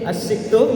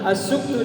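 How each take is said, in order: First: The vowel after the s is i. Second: The vowel after the s is u. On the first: "asiktu dengan kasroh" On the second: "asuktu dengan dhamma"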